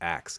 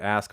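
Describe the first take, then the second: First: The word ends with a 'ks' sound. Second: The word ends with an 'sk' sound.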